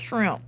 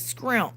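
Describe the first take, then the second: First: The word starts with a sh-r sound. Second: The word starts with an s-k-r sound. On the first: This is the usual way of saying it. The speaker calls it wrong. "not shrimp" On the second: This is the speaker's own childhood way of saying it. The speaker calls it right. "it's scrimp"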